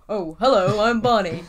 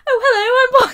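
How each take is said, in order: First: It is said in a lower-pitched Barney voice. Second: It is said in a higher-pitched Barney voice.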